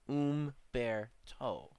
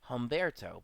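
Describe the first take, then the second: First: The name begins without an h sound. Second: The name begins with an h sound. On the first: The speaker calls it right. "but it's not. It's Umberto" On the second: The speaker calls it wrong. "Humberto is what I would have thought this would have been said"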